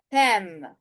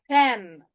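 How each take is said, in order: Both takes have the same delivery.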